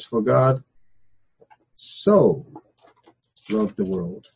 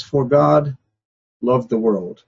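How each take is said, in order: First: So set apart with pauses before loved; so lifted and held apart; stress on so. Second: Said in the usual way. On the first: Shown as a demonstration. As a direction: pause on so, then drop for loved the world. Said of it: "so" becomes a much more important word". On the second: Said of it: "No, it says".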